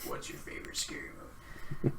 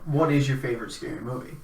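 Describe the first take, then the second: First: It is said in a menacing Ghostface voice. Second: It is said in a normal, sincere voice.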